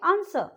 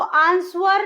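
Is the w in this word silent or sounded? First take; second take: silent; sounded. First: The w is not pronounced at all. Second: The w is pronounced as a sound. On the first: The speaker calls it right. "डब्ल्यू silent हो जाता है" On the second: The speaker calls it wrong. "वो आंसर नहीं बोलेंगे हम"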